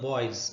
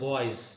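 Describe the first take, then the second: The two takes are said the same way.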